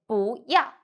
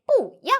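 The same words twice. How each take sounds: First: 不要 with 不 rising, then 要 falling; changed second tone. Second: 不要 with 不 high and falling, then 要 falling; uncorrected tones. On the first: Teacher corrects to 不要, rising 不 before falling 要. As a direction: lift 不 upward, then drop 要. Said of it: "it will change to second tone". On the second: Teacher poses the mistaken 不要, two falling tones. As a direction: give both 不 and 要 falling tones. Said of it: "No, we say 不要". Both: Shown as a demonstration.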